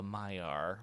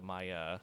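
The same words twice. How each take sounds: First: "Maiar" ending on a sounded r; first pronunciation offered. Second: "Maya" with an open ending, no r; alternative pronunciation. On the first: Host naming the wizard's order, "Maiar" as MY-ar. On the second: Host offering another way to say it, "Maya" as MY-uh. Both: Shown as a demonstration. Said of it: "or the Maya".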